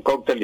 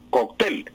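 First: "cóctel" said KOK-tel; "cóctel" as in Spain, weight on KOK; Spain's stress. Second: "cóctel" said kok-TEL; "cóctel" as in Colombia, weight on TEL; Colombian stress. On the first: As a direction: stress the first syllable of "cóctel". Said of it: "allá en España dicen". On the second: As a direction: stress the last syllable of "cóctel". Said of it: "aquí en Colombia decimos". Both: Shown as a demonstration.

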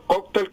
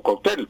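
First: First "cóctel" said KOK-tel; "cóctel" with weight on KOK; first-syllable stress. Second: Second "cóctel" said kok-TEL; "cóctel" with weight on TEL; final stress. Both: Shown as a demonstration. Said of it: "las dos palabras son correctas".

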